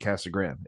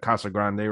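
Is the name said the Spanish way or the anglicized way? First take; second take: anglicized; Spanish. First: The name is said with an anglicized pronunciation. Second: The name is said with a Spanish pronunciation. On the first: The speaker calls it wrong. "everyone calls this city Casa Grande" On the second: The speaker calls it right. "obviously it's like Casa Grande"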